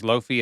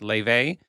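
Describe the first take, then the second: First: The name is said with an F sound. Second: The name is said with a V sound. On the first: The speaker calls it wrong. "that I thought was Lofi" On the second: The speaker calls it right. "apparently it's pronounced Lave"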